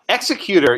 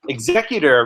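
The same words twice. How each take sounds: First: The stress is on the first syllable. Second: The stress is on the second syllable. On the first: It names someone who kills a person. "Executor usually refers to someone who actually kills someone" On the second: It names someone who administers an estate. "Executor refers to someone who administers an estate"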